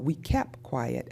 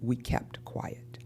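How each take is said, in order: First: The final t of kept is dropped. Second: The final t of kept is pronounced. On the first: "final consonant cluster reduction" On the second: "as opposed to"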